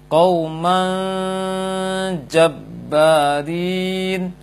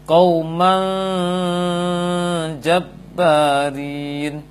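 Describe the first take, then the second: Both takes have the same delivery.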